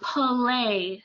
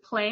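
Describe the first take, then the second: First: An extra sound is inserted into the word. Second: The word is said plainly with no added sound. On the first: The speaker calls it wrong. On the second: The speaker calls it right.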